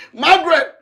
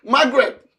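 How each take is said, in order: First: Loud call. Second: Said in the usual way. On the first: Acted. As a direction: call her name higher and louder. Calls her name again, higher.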